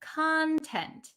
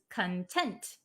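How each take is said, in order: First: The stress is on the first syllable. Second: The stress is on the second syllable. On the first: It refers to what is inside something. "The one that we're talking about today is content" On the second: It means happy or satisfied. "The one that means happy or satisfied is content"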